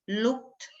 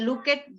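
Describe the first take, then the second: First: The ending is a short T sound. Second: The ending is an extra syllable, like 'it'. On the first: The speaker calls it right. "you have to make a T sound" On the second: The speaker calls it wrong. "sometimes you say look it, walk it. No, that's not correct"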